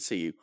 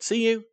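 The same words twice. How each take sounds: First: Low, soft imitated reply; retold subdued goodbye. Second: High-pitched imitated goodbye; retold eager goodbye. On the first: Girl answering the boy's goodbye, low and soft. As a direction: drop it down and quieter. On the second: Boy to his date after a quick kiss, high goodbye. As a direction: lift it right up, a chirpy retold farewell.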